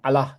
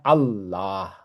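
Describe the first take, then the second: First: The 'lah' part is said short, not doubled. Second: The 'lah' part is held for two counts. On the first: The speaker calls it wrong. "nggak bisa bilang Allah gitu, nggak bisa" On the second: The speaker calls it right. "harusnya Allah gitu, harusnya dua"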